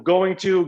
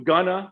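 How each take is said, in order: First: Both words are said fully and separately. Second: The words blend into one reduced form.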